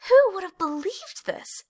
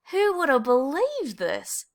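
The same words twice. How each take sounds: First: Much higher, gleeful exclamation; joyful cry. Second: Slow, higher, happy marvel; Desmond rejoicing. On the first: Clayton dancing after winning first prize, high and gleeful. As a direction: squeal it with delight. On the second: Desmond dancing at the prize, slow happy marvel. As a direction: savour the surprise. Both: A narrator's reading.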